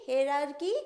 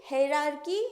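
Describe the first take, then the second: No difference in how they are said.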